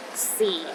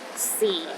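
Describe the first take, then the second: First: The pitch is at its very lowest. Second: The same.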